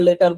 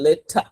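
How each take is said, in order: First: The middle t is hard, like Bengali ট. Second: The middle t is breathy, like Bengali ঠ. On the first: "আমার ভিতর থেকে আসে না লেটার লেটার বলবো" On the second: "দেখেন লেঠা বলছি"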